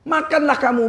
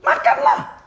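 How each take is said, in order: First: Said in the usual way. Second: Breathy, high whisper of the command. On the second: Shown as a demonstration. Preacher whispering the Quran's command to his congregation, hushed. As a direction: breathe the word Makanlah out in a whisper.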